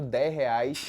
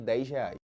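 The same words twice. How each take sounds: First: The end of dez is breathy, like an h. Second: The end of dez is a hissed s sound. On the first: "ou dez reais" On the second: "em vez de dez reais"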